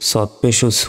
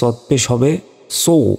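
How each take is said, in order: First: The syllable is said light, like a plain s. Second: The syllable is said heavy and thick. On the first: The speaker calls it wrong. "আমরা অনেকে ভুল উচ্চারণ করি" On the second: The speaker calls it right. "মোটা করে"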